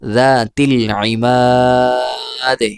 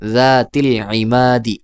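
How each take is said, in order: First: The final vowel is stretched for three beats. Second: The word ends on a short final vowel. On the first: The reader stops at the end of the word. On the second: The reading continues without stopping.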